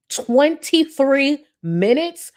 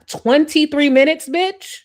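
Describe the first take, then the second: First: Very slow, high, rising disbelief; drawn-out incredulity. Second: Loud, high-pitched disbelief; incredulous outburst. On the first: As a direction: stretch each word in outraged disbelief. Repeats the outrage, drawn out. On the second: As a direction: pitch climbing up into an outraged question. Mocking outrage at the long wait. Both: Real, not acted.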